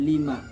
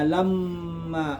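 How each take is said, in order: First: The l takes an i vowel, single m. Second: The l takes an a vowel, doubled m. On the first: "bi kasril lam" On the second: "mimnya bertasdid"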